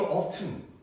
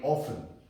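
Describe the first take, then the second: First: The word is said with a clear t sound. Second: The word is said without a t sound. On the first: This is the British pronunciation. "영국에서는 이거 often, often, 튼 발음을 합니다" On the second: This is the American pronunciation. "미국식 발음은 often이고요"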